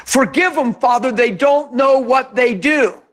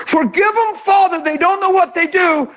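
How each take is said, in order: First: Gentle forgiving Jesus. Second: Tender forgiving Jesus voice; gentle forgiving. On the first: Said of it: "That sounds a little different than". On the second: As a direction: say it like a merciful prayer. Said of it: "sounds a whole lot different than standing for your rights". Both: Retold or imitated.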